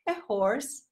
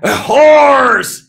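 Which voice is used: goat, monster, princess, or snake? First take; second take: princess; monster. First: It is said in a princess voice. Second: It is said in a monster voice.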